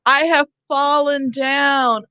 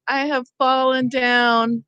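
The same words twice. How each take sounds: First: Mock call for help. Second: Said in the usual way. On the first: Teacher acting a fallen person calling out, hammed-up. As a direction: act out someone who has fallen. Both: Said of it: "Okay, so I say".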